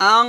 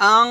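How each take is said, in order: No difference in how they are said.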